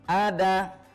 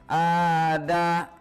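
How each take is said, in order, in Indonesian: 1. Vokalnya dibaca pendek dan cepat. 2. Vokalnya dibaca panjang. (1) "kita bacanya harus begini" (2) "tidak kita baca ada ... oh itu dibaca panjang ya, padahal tidak"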